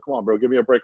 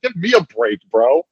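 First: Said in the usual way. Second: Higher, sarcastic echo of his words; mocking echo. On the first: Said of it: "he's like". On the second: Coworker mocking the boss's plea, in a sarcastic echo. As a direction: throw his line back at him, mocking. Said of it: "I'm like".

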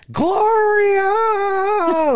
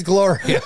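First: High, loud squawking shout of a name; parrot squawk. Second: Half-laughed squawk of the name; laughing parrot imitation. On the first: Retold or imitated. Grandson imitating grandma's parrot, a loud high squawk. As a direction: screech it like a parrot. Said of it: "All it would ever say is". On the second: Grandson redoing the parrot name, breaking into laughter. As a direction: repeat the parrot call while laughing. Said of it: "All it would say is".

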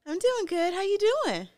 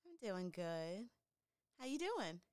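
First: Loud, high, cheerful hello; upbeat greeting, bright and high; excited greeting. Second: Faint, far from the mic; quiet voice too far from the mic; barely audible. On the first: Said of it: "is that better". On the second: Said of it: "I can barely hear you". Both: Real, not acted.

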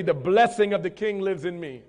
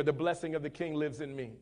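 First: With conviction. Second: Said in the usual way. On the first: Shown as a demonstration. Preacher showing the congregation how to repeat the blessing, with conviction. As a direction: declare it with full conviction. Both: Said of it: "you gotta say that with conviction".

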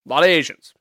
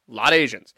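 First: "A lot of Asians" with a loud punch on "of"; punchline repeat. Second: "a lot of Asians" dropped low and flat; low deadpan repeat. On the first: Comedian repeating his punchline, punching "of". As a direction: hit "of" hard in "A lot of Asians". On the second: Comedian repeating the punchline, dropping it low. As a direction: let "a lot of Asians" sink low as an afterthought. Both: Shown as a demonstration.

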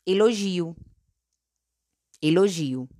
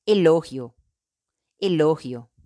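First: "elogio" in Portuguese, stressed on GI. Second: "elogio" in Spanish, stressed on LO. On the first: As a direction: say "elogio" as e-lo-ZHEE-u. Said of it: "En portugués". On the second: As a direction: say "elogio" as e-LO-hyo. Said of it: "En español". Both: Shown as a demonstration.

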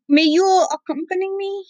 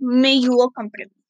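First: Higher, lighter princess voice, asking sweetly; Cotton's shy voice. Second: Said in the usual way. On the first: Acted. Grandpa voicing Cotton asking him along, high and shy. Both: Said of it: "Yeah, she said".

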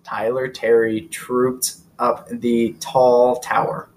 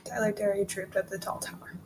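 First: Slow, careful tongue twister; tongue twister speeding up. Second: Quiet, careful repeat of "Tyler Terry trooped up the tall tower"; tongue twister speeding up. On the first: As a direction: spell out each T word slowly. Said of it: "tongue twister for you". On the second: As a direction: mumble the tongue twister back softly. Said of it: "You have to say it multiple times". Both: Shown as a demonstration.

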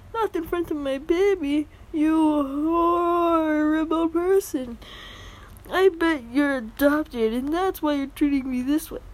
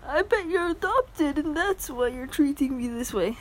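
First: Hammed-up furious entitled mother; entitled mom accent. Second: Higher mocking repeat of the mom; entitled mom voice. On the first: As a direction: shriek at him as the offended mother. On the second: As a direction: quote her again, sneering. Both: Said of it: "Sorry about the horrible accents".

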